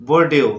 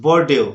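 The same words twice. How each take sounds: The two takes are said the same way.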